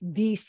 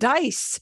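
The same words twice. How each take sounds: First: The d at the start is soft. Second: The d at the start is hard. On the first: The speaker calls it right. "dice won't have a hard D" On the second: The speaker calls it wrong. "if you say it with a hard D, people will understand you"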